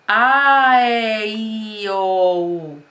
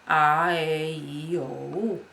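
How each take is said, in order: First: The vowels are projected loudly. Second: The vowels are said in a relaxed way.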